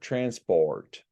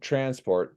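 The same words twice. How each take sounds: First: The or sound is drawn out and heavy. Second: The or sound is short and plain.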